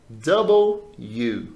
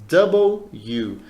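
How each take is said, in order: No difference in how they are said.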